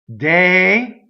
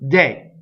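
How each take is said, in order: First: Two closed vowels are said one after another. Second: The word is cut down to one vowel. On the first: "you can do it day, also, that's acceptable, to close these" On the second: "it also can be truncated to de"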